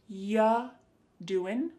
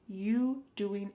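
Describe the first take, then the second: First: The word 'you' is reduced to 'ya'. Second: The word 'you' is said in full. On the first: "instead you're going to hear ya doing" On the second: "When we say you doing anything fun"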